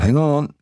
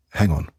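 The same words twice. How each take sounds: First: "Hang on" with "on" rising high like a question; the wrong way, asking it; rising tune. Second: "Hang on" with a steady, falling "on"; the right way, a calm imperative; falling tune. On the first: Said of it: "It's not". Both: Shown as a demonstration.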